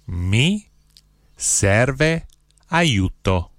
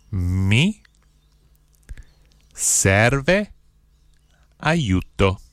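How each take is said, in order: First: Said in the usual way. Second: Each word set apart by long pauses; one word, pause, next word; slow, word by word. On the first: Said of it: "I'll say the phrase". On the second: Shown as a demonstration. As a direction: spell it out slowly for learners to repeat. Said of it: "then I'll say one word at a time slowly".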